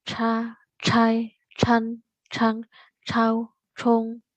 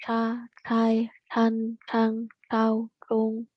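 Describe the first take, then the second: First: "Ca, cai, can, cang" tongue back with a puff of air; aspirated retroflex ch. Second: "ca, cai, can, cang" with the tongue curled back, unaspirated; tongue back on "cung"; retroflex zh. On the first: Teacher demos Mandarin ch with aspiration. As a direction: push air on "cung" with tongue curled back. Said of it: "agak ke belakang, tapi dia ada penekanannya". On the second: Teacher demos Mandarin zh, tongue curled back. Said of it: "lidahnya agak ke belakang gitu". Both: Shown as a demonstration.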